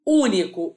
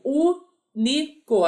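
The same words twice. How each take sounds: First: Said in the usual way. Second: "único" drawn out syllable by syllable, u-ni-co; slowly syllabified. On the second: Shown as a demonstration. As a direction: spell out "único" slowly in syllables, like a teacher splitting it.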